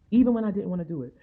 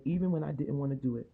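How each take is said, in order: First: Louder, faster, punched repeat; preaching it louder a second time; emphatic. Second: Said in the usual way. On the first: Real, not acted. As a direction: drive the point home hard.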